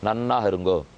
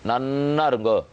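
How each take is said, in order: First: It is said plainly, in a warm tone. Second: It is drawn out and pressed, in a biting tone. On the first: It is a genuine blessing. "ஆசீர்வாதம் பண்றோம்னு அர்த்தம்" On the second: It wishes the listener ruin. "இழுத்து சொல்லலையா நம்ம?"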